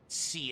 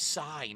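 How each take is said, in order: First: The word is said like 'see'. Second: The word is said like 'sigh'. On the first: The speaker calls it wrong. "not C" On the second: The speaker calls it right. "It's psi"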